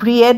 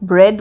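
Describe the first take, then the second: First: The word is said with two vowel sounds. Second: The word is said with one vowel sound. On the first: The speaker calls it wrong. "আমরা ব্রিয়েড বলছি না" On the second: The speaker calls it right. "ব্রেড বলছি"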